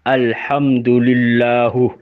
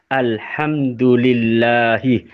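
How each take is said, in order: First: The word ends with a 'u' vowel. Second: The word ends with an 'i' vowel.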